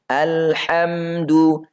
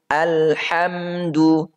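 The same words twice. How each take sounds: Both takes have the same delivery.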